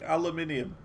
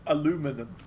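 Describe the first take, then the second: First: The word is said with five syllables. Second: The word is said with four syllables. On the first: The speaker calls it right. "But I prefer aluminium. Because that's the correct way to say it" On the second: The speaker calls it wrong. "Or as some say"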